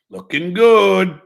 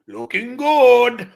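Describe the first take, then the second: First: Put-on slow, drawn-out light Puerto Rican accent. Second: Put-on slow Puerto Rican accent, lightly done. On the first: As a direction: stretch "Looking good" in a Puerto Rican accent. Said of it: "I'm trying to do it justice".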